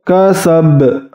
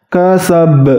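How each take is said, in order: No difference in how they are said.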